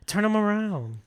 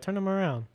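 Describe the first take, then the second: First: High, emphatic mock command; sharper insistent order. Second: Higher-pitched command at ordinary volume; insistent order. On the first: Tama pressing Andy about his hands, heightened insistence. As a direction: press the order harder, pitched up. Retold villain repeats the order. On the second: Retold or imitated. Tama ordering Andy to show his hands, controlled insistence. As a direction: give the first, restrained order.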